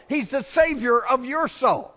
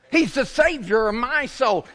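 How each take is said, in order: First: "your" punched high, turned out toward the listeners; stress on YOUR. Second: "He's the Savior of my soul" preached high, leaning on "my"; stress on my soul. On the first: Pastor pointing at the congregation, stressing "your". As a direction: hand it to them by hitting "your". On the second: Pastor testifying to the church, stressing "my". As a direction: claim the Savior as "my" own, leaning on it. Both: Acted.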